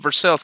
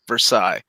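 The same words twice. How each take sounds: First: It is said the local Kentucky way. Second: It is said the way outsiders say it. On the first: "we also have a Versailles, Kentucky" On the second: "anywhere else outside of the United States, that is"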